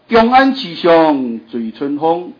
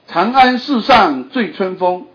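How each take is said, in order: First: The line is read in Minnan Chinese. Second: The line is read in Mandarin Chinese. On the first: The speaker calls it right. "你用这个闽南语念看看" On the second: The speaker calls it wrong. "你用北京语念"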